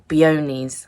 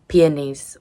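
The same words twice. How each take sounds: First: "peonies" with stressed middle, pee-OH-neez; alternative pronunciation. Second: "peonies" stressed at the front, PEE-uh-neez; first pronunciation. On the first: Unsure of the word, offering "peonies" as pee-OH-neez. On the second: Describing the queen's flowers, "peonies" as PEE-uh-neez. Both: Shown as a demonstration. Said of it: "however you say it".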